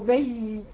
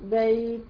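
First: The ya glide is pressed with forceful emphasis. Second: The ya glide flows easily without extra force. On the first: The speaker calls it wrong. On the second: The speaker calls it right.

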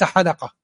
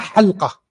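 First: The L is followed by an a: halaqa. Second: The L has no vowel after it: halqa. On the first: The speaker calls it wrong. "وليس بفتحها" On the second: The speaker calls it right. "الأفصح بالإسكان، بإسكان اللام"

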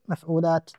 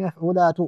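First: The word ends on a silent t without a vowel. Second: The word ends with a short vowel after the t. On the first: "تسكين السابع المتحرك ... فتصير مفعولات" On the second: "السابع المتحرك في مفعولات"

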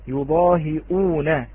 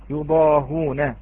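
First: A glottal stop comes before the ending. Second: No glottal stop comes before the ending. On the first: "حدث فيها الهمزة" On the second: "تقرأ يضاهون بهذه الطريقة"

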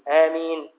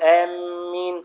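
First: The m sound is short and light. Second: The m sound is doubled and held. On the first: The speaker calls it right. "بتخفيف الميم" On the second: The speaker calls it wrong. "وليس بالتشديد، لا تقول آمين خطأ"

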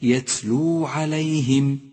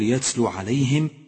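First: The final vowel of yatlu is held long. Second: The final vowel of yatlu is cut short. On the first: The speaker calls it right. "ولكن" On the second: The speaker calls it wrong. "لا تقول"

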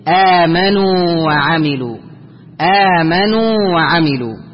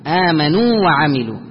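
First: The waw between the words is single, not merged. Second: The waw between the words is doubled and merged. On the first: The speaker calls it right. "وإنما الصحيح" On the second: The speaker calls it wrong. "يشد الواو فيقول"

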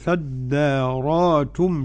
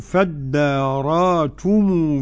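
First: A glottal stop is pronounced before -tum. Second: A long vowel replaces the glottal stop.

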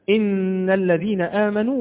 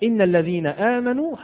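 First: The doubled consonants are held long. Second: The doubled consonants are shortened to single ones. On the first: The speaker calls it right. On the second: The speaker calls it wrong.

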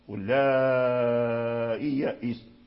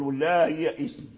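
First: The hamza is softened and the vowel lengthened. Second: The hamza becomes an h, with no lengthening. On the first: The speaker calls it right. "المد والقصر في التسهيل فقط" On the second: The speaker calls it wrong. "فلا يمد ويقول واللائي يائس، وهذا غلط، لأن يسهل الهمزة هاء"

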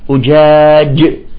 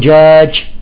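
First: The j sound is clear and fully voiced. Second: The j sound comes out close to sh. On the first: The speaker calls it right. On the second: The speaker calls it wrong.

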